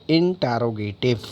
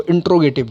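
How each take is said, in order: First: इंटेरोगेटिव with a full "te" before "ro"; correct interrogative pronunciation. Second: इंट्रोगेटिव with the middle syllable swallowed; mispronounced interrogative. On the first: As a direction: sound out every syllable of इंटेरोगेटिव, in-te-ro-ge-tiv. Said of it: "क्या बोलेंगे आप इसको?". (इंटेरोगेटिव, "टे" का पूरा उच्चारण करते हुए) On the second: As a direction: say इंट्रोगेटिव quickly, running "inter" into "intro". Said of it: "that is not the right pronunciation". (इंट्रोगेटिव, गलत उच्चारण में "टे" को दबाकर) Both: Shown as a demonstration.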